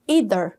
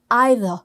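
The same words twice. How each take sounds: First: It is said with a non-British pronunciation. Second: It is said with a British pronunciation.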